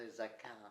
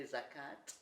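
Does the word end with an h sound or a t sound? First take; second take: h sound; t sound. First: The word ends with an h sound. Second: The word ends with a t sound. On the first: "and some say zakah" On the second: "some people say zakat with a T"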